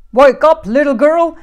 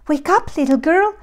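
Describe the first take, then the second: First: Very loud, raised bear roar; growling big bear. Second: Higher, loud mother bear call; middle-sized bear. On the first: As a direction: roar the order as Papa Bear. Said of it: "growled the great big bear". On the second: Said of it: "said the middle-sized bear". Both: A narrator's reading.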